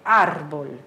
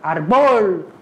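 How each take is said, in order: First: The stress is on the first syllable. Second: The stress is on the second syllable. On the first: The speaker calls it right. "a sílaba tônica é o ar" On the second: The speaker calls it wrong. "e não arbol"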